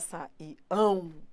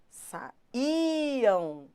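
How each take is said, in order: First: The stress is on the last syllable. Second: The stress is on the second syllable. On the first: The speaker calls it wrong. "Não é saíam. Não é o ão que é forte" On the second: The speaker calls it right. "Ó como ele é forte"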